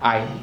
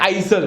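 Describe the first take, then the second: First: The S sound is silent. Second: The S sound is pronounced. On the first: The speaker calls it right. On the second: The speaker calls it wrong.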